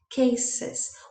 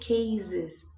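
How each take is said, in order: First: The middle consonant is a hissing s sound. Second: The middle consonant is a buzzing z sound. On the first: The speaker calls it right. "the sound is not z. It is s" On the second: The speaker calls it wrong. "We don't say cases"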